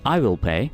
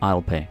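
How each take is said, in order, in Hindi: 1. दोनों शब्द 'I will' पूरे बोले जाते हैं। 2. 'I will' को छोटा करके एक ही अक्षर कर दिया जाता है, 'I'll'।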